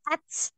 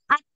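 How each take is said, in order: First: It ends in a t followed by a hissing s. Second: It ends in a stopped t with released breath. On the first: The speaker calls it wrong. "Jadi bukan ats" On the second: The speaker calls it right. "yang ngalir nafasnya"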